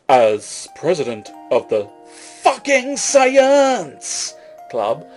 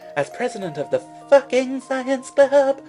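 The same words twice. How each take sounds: First: It is read in the speaker's ordinary voice. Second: It is read in a put-on female voice.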